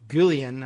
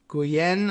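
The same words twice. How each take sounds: First: The double L has a non-Spanish sound. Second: The double L has the Spanish sound. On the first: "but she might say" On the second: "I would guess from the, the Spanish pronunciation of the double L's"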